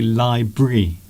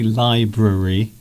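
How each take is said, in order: First: The word is shortened, with a syllable dropped. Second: The word is said in full, every syllable sounded. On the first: "They say library" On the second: "Most people don't say library"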